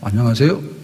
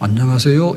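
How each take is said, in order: First: It sounds somewhat defiant and challenging. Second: It sounds polite and respectful.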